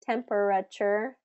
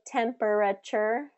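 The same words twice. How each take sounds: No difference in how they are said.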